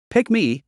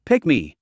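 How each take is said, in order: First: High eager plea; excited. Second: Said in the usual way. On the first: Acted. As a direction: beg to be picked, pitched up. Eager fan begging in chat.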